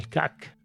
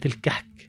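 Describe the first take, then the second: First: The middle consonant is a throaty ayn sound. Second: The middle consonant is a breathy h sound. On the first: This is the standard Arabic form. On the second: This is the Egyptian colloquial form.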